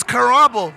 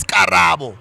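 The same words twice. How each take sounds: First: Karabo with an English R, kʰa-RAH-bo; anglicized name. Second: Karabo with a tapped r and even syllables, ka-ra-bo; proper Sepedi name. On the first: Retold or imitated. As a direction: say Karabo the English way, aspirated K and rolled-back R. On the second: Shown as a demonstration. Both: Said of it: "No, your name is not Karabo".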